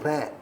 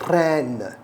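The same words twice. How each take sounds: First: The final N sound is swallowed and lost. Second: The final N sound is clearly pronounced. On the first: The speaker calls it wrong. "You don't say ran, and you know, let the N get lost" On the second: The speaker calls it right. "The N is also important"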